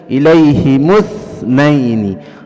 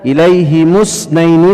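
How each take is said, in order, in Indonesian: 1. Kata terakhir berbunyi th lembut. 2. Kata terakhir berbunyi s desis. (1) "tapi dibaca" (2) "tidak dibaca"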